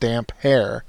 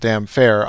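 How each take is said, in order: First: The second part starts with an h sound. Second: The second part starts with an f sound. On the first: "in my mind, Aaron's nickname has always been pronounced damp hair" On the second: "She pronounced it damn fair"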